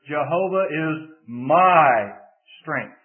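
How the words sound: The word my is stressed. The strength is personal to the speaker. "if you shift the emphasis to the third word"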